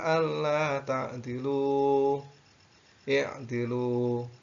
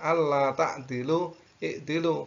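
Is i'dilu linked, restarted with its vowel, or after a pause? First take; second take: paused; restarted. First: A pause, then i'dilu begins with its i. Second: No pause, but the initial i is pronounced. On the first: The reader stops after the first word. The speaker calls it right. "kalau diwakafkan boleh" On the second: The reader continues without stopping. The speaker calls it wrong. "Tidak ... kalau kita lanjut"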